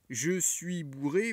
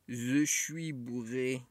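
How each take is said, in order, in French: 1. Les consonnes sont prononcées clairement et normalement. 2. Les sons j et s sont transformés en z et ch. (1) "au lieu de dire" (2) "vont dire"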